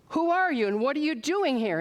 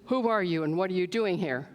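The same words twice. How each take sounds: First: It is shouted at full volume. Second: It is said at a normal, quiet volume.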